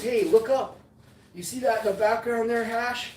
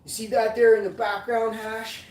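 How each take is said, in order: First: Imitating Squish's Michigan accent, higher; a light Michigan accent for Squish; mock Michigan accent, raised pitch. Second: Put-on Squish's Michigan accent again, louder and higher. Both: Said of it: "This is Squish's kind of accent".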